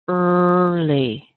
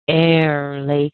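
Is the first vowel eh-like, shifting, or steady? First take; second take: steady; eh-like. First: The first vowel is a steady er sound. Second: The first vowel sounds like eh. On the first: The speaker calls it right. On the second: The speaker calls it wrong.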